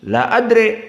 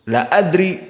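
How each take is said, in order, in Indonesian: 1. Vokal akhir condong ke e. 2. Vokal akhir adalah i yang jelas.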